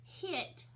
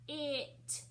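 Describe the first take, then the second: First: Said in the usual way. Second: "H-it" split into a puffed h, then it; sounded out. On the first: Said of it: "the first word is hit". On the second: Shown as a demonstration. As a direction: break "H-it" after the first sound, with a gap. Teacher breaks word into sounds.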